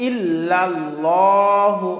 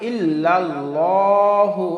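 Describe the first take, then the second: No difference in how they are said.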